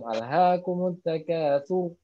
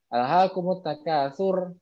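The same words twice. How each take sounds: First: The final r sound is heavy and thick. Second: The final r sound is light and thin. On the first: The speaker calls it right. "tapi tebal karena dia tafhim" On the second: The speaker calls it wrong. "Jadi bukan sur alhaakumut takasur. Nah itu salah"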